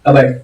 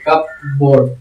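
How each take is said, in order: First: The p sound is left silent. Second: The p sound is clearly pronounced. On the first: "पी H को वहां पर silent कर दिया गया" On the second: "C U पी कप B O A R D बोर्ड"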